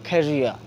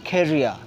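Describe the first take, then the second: No difference in how they are said.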